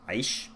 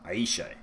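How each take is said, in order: First: The name ends with the 'sh' sound, no vowel. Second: The name ends with an 'uh' vowel sound. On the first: The speaker calls it right. "So I'm going with Aish" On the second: The speaker calls it wrong. "it's not Aisha because that's with an A at the end"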